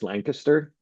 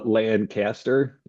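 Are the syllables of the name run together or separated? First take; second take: run together; separated. First: The syllables are run together quickly. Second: The syllables are said separately and fully. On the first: The speaker calls it right. "You, run it all together. It's Lancaster" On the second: The speaker calls it wrong. "So not a not a Lancaster"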